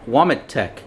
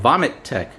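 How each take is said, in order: First: The name begins with a W sound. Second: The name begins with a V sound. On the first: The speaker calls it wrong. "you see the W, and it's and they call it Womitek" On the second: The speaker calls it right. "when actually it's called Vomitek"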